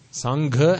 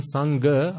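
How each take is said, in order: First: "Sangha" slowly, with aspirated gh; correct "Sangha". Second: "Sangha" slowly, with a plain g; mispronounced "Sangha". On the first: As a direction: stretch out "Sangha" with a breathy gh. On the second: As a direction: give "Sangha" a g without breath. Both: Shown as a demonstration. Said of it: "completely opposite meanings".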